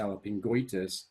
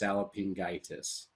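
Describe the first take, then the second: First: An extra 'o' vowel comes before '-itis'. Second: No extra vowel comes before '-itis'. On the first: The speaker calls it wrong. "you're not going to say salpingoitis" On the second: The speaker calls it right. "it would be just salpingitis instead"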